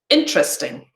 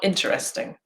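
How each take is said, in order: First: A middle vowel sound is dropped. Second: Every syllable is fully pronounced. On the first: The speaker calls it right. "examples of elision" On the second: The speaker calls it wrong.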